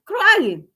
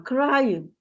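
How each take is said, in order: First: "Crying." said much higher and louder; stressed repeat. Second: Said in the usual way. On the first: Real, not acted. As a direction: hit the word "Crying." hard in disbelief. Repeats a grown man crying.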